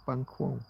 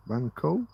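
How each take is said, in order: First: "Banquo" as BANG-kwo, softly falling. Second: "Banquo" as BANG-koh with a questioning rise; Banquo tried as BANG-koh. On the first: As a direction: settle on "Banquo" with a KWO ending. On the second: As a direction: try "Banquo" ending in a plain KOH, asking. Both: Shown as a demonstration. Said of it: "However you wanna pronounce it".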